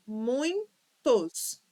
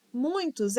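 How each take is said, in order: First: "Muitos" split slowly into mui-tos; syllable by syllable. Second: Said in the usual way. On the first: Shown as a demonstration. Teacher proving it has two syllables, "Muitos" syllable by syllable. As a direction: break "Muitos" in two, a clear gap between halves. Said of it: "é dissílaba". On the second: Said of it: "por possuir três sílabas".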